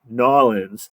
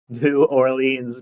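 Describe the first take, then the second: First: The name is squeezed into fewer syllables. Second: The name is said with all its syllables. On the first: This is how friends say it should be. "It should be Nolans" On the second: This is the speaker's own habit. "that's just how I say it"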